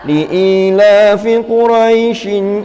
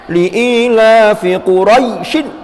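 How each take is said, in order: First: The long vowel is pronounced softly and smoothly. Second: The long vowel is pronounced stiffly and rigidly. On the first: The speaker calls it right. "namanya saja lunak kok" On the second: The speaker calls it wrong. "itu kekakuan"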